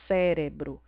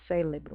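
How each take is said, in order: First: The second consonant is an R sound. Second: The second consonant is an L sound. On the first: The speaker calls it right. "a palavra correta é essa que soa mais estranho" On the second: The speaker calls it wrong. "Com L"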